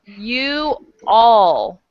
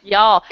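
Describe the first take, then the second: First: "you all" as two slow, separate words; full uncontracted form. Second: "Y'all" run together as one short syllable; contracted form. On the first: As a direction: stretch out "you" and "all", each on its own. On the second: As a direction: say "Y'all" as one quick word. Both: Shown as a demonstration. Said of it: "This is a contraction".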